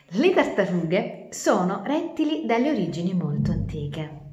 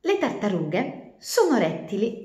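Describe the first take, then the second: First: Said in the usual way. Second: Slow, careful first line of the tale; slow story opening. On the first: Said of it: "retake after ops". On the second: A narrator's reading. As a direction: begin the story slowly. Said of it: "false start then retake". (inizio lento della fiaba)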